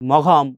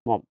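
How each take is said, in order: First: It is said 'mogham' with a g sound. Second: It is said 'mom' with no g sound. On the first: The speaker calls it wrong. "কেউ মঘম" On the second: The speaker calls it right. "এটা উচ্চারণ কিন্তু কি মম"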